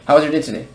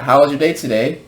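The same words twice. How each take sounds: First: The words are blended together into one run. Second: Each word is said separately and clearly. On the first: "they mix words together" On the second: "So instead of uh"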